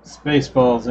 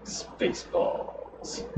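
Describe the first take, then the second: First: Said in the usual way. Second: Very slow, hushed stage whisper; drawn-out whisper. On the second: Acted. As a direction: whisper SPACEBALLS, stretching it right out. Echoes film title in hushed voice.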